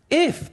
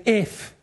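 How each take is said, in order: First: If, thrown up high; stressed if. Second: Said in the usual way. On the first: Shown as a demonstration. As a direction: hit If hard, much higher. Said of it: "everyone say, "If". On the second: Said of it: "everyone say".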